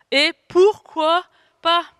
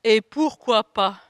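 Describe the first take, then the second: First: Higher, louder and slow, full of defiance; slow, defiant answer to the inner saboteur; defiant comeback. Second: Said in the usual way. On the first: Shown as a demonstration. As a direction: throw it back proudly at the doubter.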